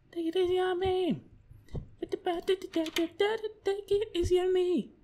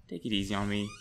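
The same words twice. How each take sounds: First: High pleading falsetto; mock plea. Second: Said in the usual way. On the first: Gamer pleading with the game, high mock falsetto. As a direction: beg the game in a silly high voice.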